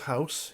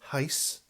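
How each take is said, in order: First: The vowel is a plain 'ow' sound. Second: The vowel is a clipped 'ay'-like sound. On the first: The speaker calls it right. "He can't pronounce house" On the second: The speaker calls it wrong. "He pronounces it as heis"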